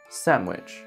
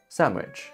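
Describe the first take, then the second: First: The middle is said with an m sound. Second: The middle is said with an m sound.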